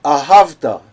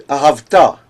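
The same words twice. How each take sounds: First: Ahavta with the stress on the middle syllable, HAV; next-to-last syllable stressed. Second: Ahavta with the stress on the last syllable, TA; wrong final stress. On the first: Teacher showing cantors the right reading, ahavta stressed on HAV. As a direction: punch "hav" in ahavta, light final "ta". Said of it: "You should read ahavta". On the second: Teacher warning cantors how not to read it, ahavta stressed on the end. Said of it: "you should not read ahavta". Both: Shown as a demonstration.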